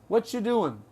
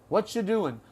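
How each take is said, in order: The two takes are said the same way.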